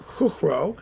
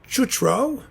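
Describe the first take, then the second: First: The name is said in a Czech way. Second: The name is said in an anglicized way. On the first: The speaker calls it right. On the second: The speaker calls it wrong.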